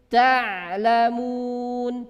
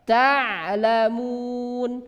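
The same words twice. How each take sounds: Both takes have the same delivery.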